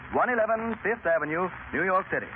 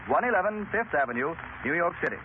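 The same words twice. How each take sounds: The two takes are said the same way.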